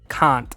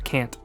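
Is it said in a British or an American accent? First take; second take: British; American. First: It is said in a British accent. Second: It is said in an American accent.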